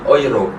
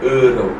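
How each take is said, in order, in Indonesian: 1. Vokal pertama dibaca 'oi'. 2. Vokal pertama dibaca 'eu'. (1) "jadi dibacanya oi" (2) "bukan euro"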